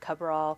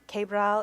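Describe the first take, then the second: First: The name is pronounced the Filipino American way. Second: The name is pronounced the Spanish way. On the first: "My family says it Cabral because we're Filipino Americans" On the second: "Cabral is the Spanish way to say it"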